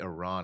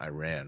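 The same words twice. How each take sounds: First: It does not sound like 'I ran'. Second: It sounds like 'I ran'. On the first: The speaker calls it right. "I remember to say Iran" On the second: The speaker calls it wrong. "and not Iran"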